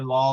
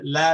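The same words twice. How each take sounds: First: The L sounds thick and heavy. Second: The L sounds thin and light. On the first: The speaker calls it wrong. "You don't say la, la, la. No, no, no" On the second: The speaker calls it right. "lam typically is a letter of tarqiq, which means that you pronounce it la"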